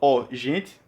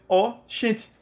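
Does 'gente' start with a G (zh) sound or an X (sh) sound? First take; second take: G (zh); X (sh). First: Gente starts with a soft zh sound. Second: Gente starts with a sh sound.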